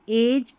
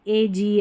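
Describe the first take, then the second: First: The ending is said as a short 'j'. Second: The ending is said as a full 'jee'. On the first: The speaker calls it right. "ऐसे पढ़ देना है" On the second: The speaker calls it wrong. "ऐसे नहीं"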